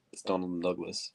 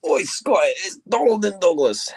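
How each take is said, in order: First: Said in the usual way. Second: Loud, high Scottish call; shouting call. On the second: Acted. Calling out as the twins.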